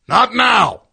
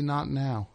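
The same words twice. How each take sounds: First: Much higher, explosive shout; angry yell. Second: Said in the usual way. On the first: Retold or imitated. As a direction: bellow it like an impatient musician cutting someone off. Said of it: "he, like, yells at me". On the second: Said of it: "tells me".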